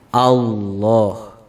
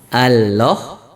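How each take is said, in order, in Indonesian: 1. Bunyi L itu tebal dan berat. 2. Bunyi L itu tipis dan ringan. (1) "Ini cara membaca lam yang uh, tebal" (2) "Ini salah"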